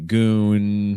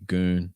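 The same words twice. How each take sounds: First: The final n sound is held long. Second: The final n sound is kept short. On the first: The speaker calls it wrong. "It doesn't have to be goon" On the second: The speaker calls it right. "It could just be goon"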